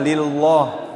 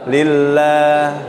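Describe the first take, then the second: First: The l sound is heavy and thick. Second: The l sound is light and thin. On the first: The speaker calls it wrong. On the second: The speaker calls it right. "Tarqiq tipis lah ya"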